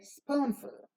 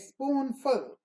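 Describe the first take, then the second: First: The second syllable is shorter and less prominent. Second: The second syllable is full and prominent. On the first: The speaker calls it right. "we say spoonful" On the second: The speaker calls it wrong. "we don't say spoonful"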